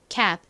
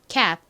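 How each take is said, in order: The two takes are said the same way.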